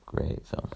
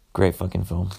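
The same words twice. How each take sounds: First: Whispered "Great film" under the breath; a soft whispered afterthought, "Great film". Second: Said in the usual way. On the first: Real, not acted. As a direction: breathe the words "Great film" as a private aside. Repeats praise, then whispers it.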